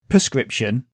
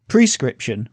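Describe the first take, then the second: First: Two consonant sounds near the start are swapped. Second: The sounds follow the order of the spelling. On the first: This is the everyday spoken form. "we say" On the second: This is the form that matches the spelling. "which is how it's spelt"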